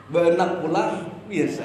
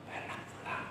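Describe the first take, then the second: First: Said in the usual way. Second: "Benak pulang." breathed as a soft unvoiced whisper. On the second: Shown as a demonstration. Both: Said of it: "Volume suara kan mempengaruhi".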